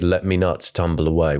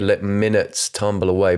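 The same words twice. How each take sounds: First: "me nuts" read as written, me nuts tumble away; "let me nuts tumble away" with "me nuts" as two words; misread line. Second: "minutes" said as one word, mɪnəts; "let minutes tumble away" said plainly with "minutes"; corrected reading. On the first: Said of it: "Why is tumble spelled like that?". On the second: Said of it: "'Cause he's saying". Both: Shown as a demonstration.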